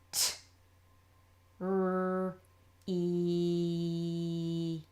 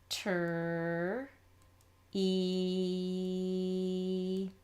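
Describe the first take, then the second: First: Each sound is said separately. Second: The first two sounds are blended together. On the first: The speaker calls it right. "If you don't say it until you're ready to write it, you're all good" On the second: The speaker calls it wrong. "Don't do this"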